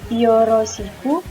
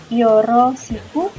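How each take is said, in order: The two takes are said the same way.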